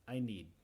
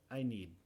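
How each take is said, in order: No difference in how they are said.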